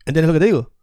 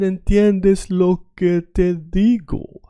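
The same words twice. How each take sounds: First: Quick native-speed Spanish; natural fast speed. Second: Slowly, each word drawn out for a beginner; slow learner version. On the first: Teacher to students, showing fast native Spanish. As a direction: rattle it off like a native would. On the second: Teacher to students, slow careful Spanish pronunciation. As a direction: spell it out slowly like a learner hears it. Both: Shown as a demonstration. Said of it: "I'm saying it very fast".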